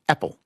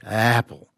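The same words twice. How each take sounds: First: The word begins with a sharp glottal catch. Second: The word begins softly, with no catch. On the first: The speaker calls it right. "Is what you expect" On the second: The speaker calls it wrong. "as sort of a starting soft, apple, but it sounds strange"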